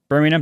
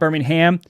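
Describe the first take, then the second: First: It is said with a British pronunciation. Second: It is said with an American pronunciation. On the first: It names the city in England. The speaker calls it right. "Birmingham, U K. Birmingham" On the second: It names the city in Alabama. The speaker calls it wrong. "not Birmingham. Got a lot of flack for calling it Birmingham"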